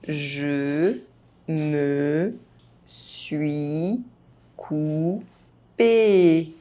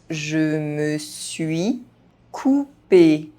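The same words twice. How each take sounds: First: The phrase is spoken very slowly. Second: The phrase is spoken at normal speed. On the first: Each syllable can be heard clearly. "very slowly" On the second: This is the pace learners should use. "at a normal pace"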